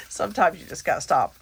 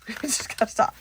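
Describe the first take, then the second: First: Said in the usual way. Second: Laughing through the repeat. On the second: Real, not acted. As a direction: giggle as you say it again.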